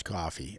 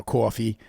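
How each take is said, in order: First: "coffee" with an open Boston "ah". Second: "coffee" with a rounded New York "aw". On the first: Contrasting Boston with New York, "coffee" as "cah-fee". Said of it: "Boston's coffee". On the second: Correcting to show New York's way, "coffee" as "caw-fee". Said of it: "So New York is coffee". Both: Shown as a demonstration.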